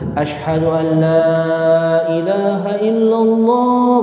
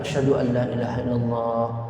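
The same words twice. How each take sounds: First: It is said in a loud, strong voice. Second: It is said in a soft, quiet voice.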